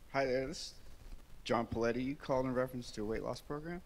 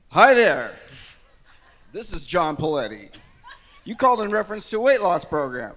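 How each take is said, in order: First: It sounds like casual everyday conversation. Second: It sounds like a polished radio announcer.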